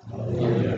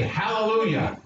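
First: Said in the usual way. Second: Leading a call. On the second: Shown as a demonstration.

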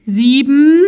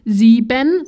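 First: "sieben" said loudly with the ending swallowed; loud "sieben", second syllable collapsed; loud, shortened ending. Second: "sieben" with both syllables fully sounded; "sieben" neatly articulated in two syllables; clear pronunciation. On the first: Retold or imitated. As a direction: say "sieben" loud and deliberate but cut to "siebm". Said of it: "Ich hab's halt laut und langsam gesagt, aber halt trotzdem mega abgekürzt".

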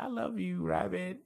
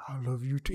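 First: High, doting little voice; high cartoon voice. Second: Lightly voiced demon rabbit; demonic voice. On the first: Cartoon character professing love to a pink rabbit, high cartoon voice. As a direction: lift it way up, sweet and childlike. Voicing Puddin' to his rabbit. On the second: Pink rabbit answering the one who loves it, mild demonic voice. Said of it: "like, the demonic voice".

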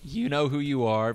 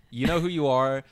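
First: Cracking voice on you. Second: Said in the usual way. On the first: Real, not acted. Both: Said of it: "voice crack on the U".

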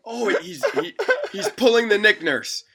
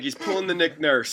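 First: Much higher, louder, laughing through a hammed-up French Canadian accent; mock French Canadian accent. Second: A second, calmer go at the French Canadian coach voice; mock French Canadian accent. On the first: Rival coach scoffing at a defence, laughing French Canadian accent. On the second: Rival coach repeating his jab, mild French Canadian accent. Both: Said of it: "That's my French Canadian accent".

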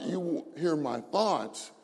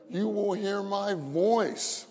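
First: "thoughts" stressed as the word being rejected. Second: "voice" raised high and drawn out; stress on VOICE. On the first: Preacher rejects a misreading of the Psalm, stressing "thoughts". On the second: Preacher corrects the Psalm's wording for the congregation, "voice" high and drawn out. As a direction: stretch out "voice" slowly as the correct word. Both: Shown as a demonstration. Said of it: "it's not".

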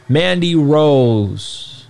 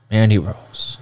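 First: Slow drawn-out ring announcer call. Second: Said in the usual way. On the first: Pretend. Announcer-style name call.

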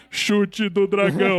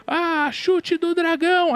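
First: Slow, solemn move-name callout; dramatic anime narration. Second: High, slow anime battle cry. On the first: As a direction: announce the attack gravely. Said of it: "aí de repente para tudo". (anúncio solene e lento do golpe de anime) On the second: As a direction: shout the move name like an anime hero. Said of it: "sabe a voz de anime?". (grito de golpe de anime, agudo e lento) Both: Retold or imitated.

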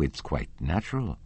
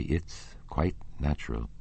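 First: Said in the usual way. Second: Soft, mildly submissive echo; quiet, resigned agreement. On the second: A narrator's reading. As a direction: repeat it meekly and softly. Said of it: "echoed Raoul submissively".

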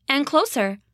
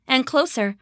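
Both takes have the same delivery.

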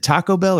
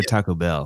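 First: "Taco Bell" with the weight on Taco; stress on TACO. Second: "Taco Bell" with the weight moved onto Bell; stress on BELL. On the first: Podcast guest testing where the stress goes, Taco stressed in "Taco Bell". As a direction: lean on Taco, let Bell follow. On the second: Podcast guest joking about stress, Bell stressed in "Taco Bell". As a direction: punch Bell rather than Taco. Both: Shown as a demonstration. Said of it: "did I stress the wrong thing".

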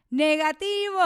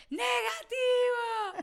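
First: Said in the usual way. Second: Stretched-out joyful shout. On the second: Retold or imitated. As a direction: call out "Negativo" long and high in disbelief. Second result, drawn-out cry.

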